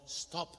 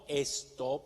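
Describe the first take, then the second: First: It is said with an English-style pronunciation. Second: It is said with a Spanish-style pronunciation. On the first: The speaker calls it right. "sino stop. Pronunciemos bien" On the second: The speaker calls it wrong. "no stop"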